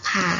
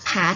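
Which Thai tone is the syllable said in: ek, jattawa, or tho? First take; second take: ek; ek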